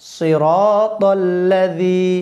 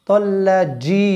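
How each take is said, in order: First: The last consonant is a soft th-like sound. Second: The last consonant is a hard j sound. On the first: The speaker calls it right. "জি নরম করি, জিবাটা বাইর করে উচ্চারণ করলে" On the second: The speaker calls it wrong. "তাল্লাজি বললে ভুল হবে"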